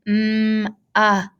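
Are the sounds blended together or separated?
blended. The sounds run together without a break. The speaker calls it right. "continuously saying it over and over and blending those sounds together"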